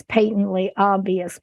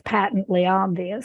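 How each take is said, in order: First: "patently" with first vowel as in "pay"; long-A pronunciation. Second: "patently" with first vowel as in "pat"; short-A pronunciation. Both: Real, not acted.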